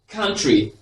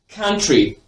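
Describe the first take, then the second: First: The first vowel is a short, open 'uh' sound. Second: The same.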